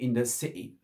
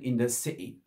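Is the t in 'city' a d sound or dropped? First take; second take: dropped; dropped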